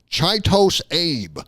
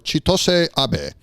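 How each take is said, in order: First: The name is said in an Americanized way. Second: The name is said in a non-Americanized way. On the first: The speaker calls it wrong. "mad Americans are going to pronounce that" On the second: The speaker calls it right. "That's my best guess"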